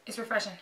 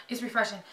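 Both takes have the same delivery.

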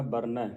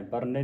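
First: ਬਰਨੈ ending in open "ai"; ਬਰਨੈ with dulavan. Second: ਬਰਨੇ ending in closed "e"; mispronounced ਬਰਨੇ. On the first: Teacher modelling the reading, ਬਰਨੈ ending in open "ai". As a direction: finish ਬਰਨੈ on a clear "nai". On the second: Teacher showing the reading to avoid, ਬਰਨੇ ending "ne". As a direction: finish ਬਰਨੇ on "ne", not "nai". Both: Shown as a demonstration. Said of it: "ਬਰਨੇ ਨਹੀਂ ਪੜਨਾ".

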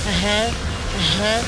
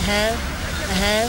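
Both takes have the same delivery.

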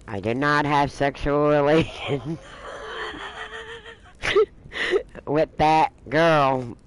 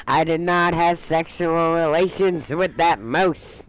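First: Slow, drawn-out presidential denial; a light take on Clinton's famous denial; Clinton impression. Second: Slowed, drawn-out denial; lightly mocking the denial with a new ending; mock Kathy denial. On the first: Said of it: "he used the same line". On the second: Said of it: "Kathy, on the other hand is".

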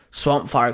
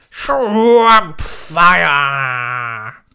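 First: Said in the usual way. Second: Long, loud drawn-out battle cry; called out. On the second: A narrator's reading. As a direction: shout SWAMP FIRE, stretching both words. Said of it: "Swamp Fire called out".

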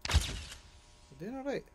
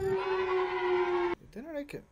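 First: Softer, murmured repeat; a quiet, understated echo; soft self-reassurance. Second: Lightly voiced booming encouragement; mock encouraging mentor. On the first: Real, not acted. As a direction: tell yourself quietly it's fine. Repeats it softly to himself. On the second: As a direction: cheer the kid on like a hammed-up coach. Encouraging himself in put-on voice.

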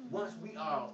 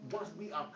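The two takes are said the same way.

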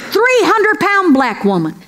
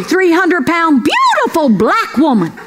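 First: Said in the usual way. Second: "beautiful" leaned on as the added correction; "beautiful" stressed as a pointed amendment. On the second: Shown as a demonstration. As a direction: correct yourself and hit "beautiful".

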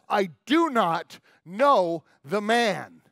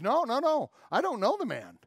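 First: Loud, very slow, word-by-word acted denial; swearing angry denial. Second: Acted denial, quick high-pitched no's; insistent denial. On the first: Peter swearing at the child who accuses him, acted angry denial. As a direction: hammer out each word loudly and slowly. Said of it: "Peter swears at the child". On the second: Peter brushing off an accuser by the fire, acted insistent denial. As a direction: deny it hastily, pitch jumping up then settling. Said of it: "pulling further and further away".

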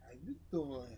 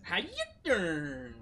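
First: Low, soft "How you doing?" with a pause; low smooth pickup. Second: Copying the pickup line. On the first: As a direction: lean in and murmur it. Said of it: "It's called pause". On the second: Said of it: "Okay, go". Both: Shown as a demonstration.

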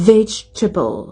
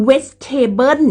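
First: "vegetable" as VEJ-tuh-bul; "vegetable" stressed first, falling, reduced ending; English vegetable. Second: "vegetable" as wet-TAY-bern; "vegetable" Thai-style, ending in "bern". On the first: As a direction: start "vegetable" on a V, teeth on lip. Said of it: "เอาฟันบนนะคะ แต่ริมฝีปากล่าง". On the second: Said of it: "บ่แม่น vegetable จังสิเด้". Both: Shown as a demonstration.

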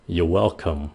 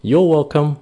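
First: Said in the usual way. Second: Higher, louder "You're welcome" with a lifted tune; perky, informal you're welcome; upbeat you're welcome. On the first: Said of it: "nó hơi formal". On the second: Shown as a demonstration. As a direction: bounce it up cheerfully. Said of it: "các bạn phải đánh cái âm nó lên".

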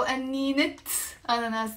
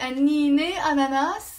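First: "أنينة أناناس" as anninet, pause, ananas; linking t pronounced. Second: "أنينة أناناس" as annine ananas, higher and louder, rising; silent ta marbuta. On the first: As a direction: offer "أنينة أناناس" with a clear t ending أنينة. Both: Shown as a demonstration. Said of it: "لازم نلفظ الت المربوطة".

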